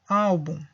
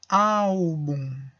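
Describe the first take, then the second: First: The word is said a little faster. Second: The word is said slowly and carefully.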